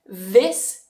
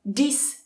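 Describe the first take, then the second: First: The word begins with a voiced th sound. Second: The word begins with a hard d sound. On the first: The speaker calls it right. "so tongue between the teeth" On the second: The speaker calls it wrong. "Careful, you're not saying dis"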